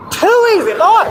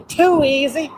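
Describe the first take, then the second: First: Very high "too easy"; exclaimed catchphrase. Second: Restrained catchphrase. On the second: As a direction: hold back the first "too easy". Catchphrase said, then repeated bigger. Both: Acted.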